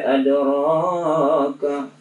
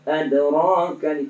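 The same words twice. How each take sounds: First: The long vowel is stretched out too long. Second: The long vowel is held for a normal length. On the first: The speaker calls it wrong. "tidak adraka, di lebih matnya ya, itu dikurangi" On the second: The speaker calls it right. "seharusnya talik aja"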